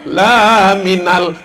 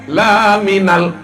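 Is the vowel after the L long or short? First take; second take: long; short. First: The vowel after the L is long. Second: The vowel after the L is short. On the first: You are not a messenger. The speaker calls it wrong. "Tapi kalau laminal, kau bukan rasul" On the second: You are truly a messenger. The speaker calls it right. "kalau lamnya pendek"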